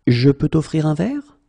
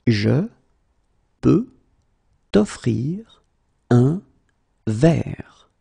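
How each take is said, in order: First: Said in the usual way. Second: Slow, word by word. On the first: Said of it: "teacher repeats full sentence". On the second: Shown as a demonstration. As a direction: pause after every word. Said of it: "teacher drills word by word".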